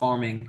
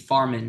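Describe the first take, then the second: First: The word ends in a full 'ing' sound. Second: The word ends in a plain 'in' sound. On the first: This is not the form used in the tour's name. The speaker calls it wrong. "not farming" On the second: This is the form used in the tour's name. The speaker calls it right. "with an apostrophe"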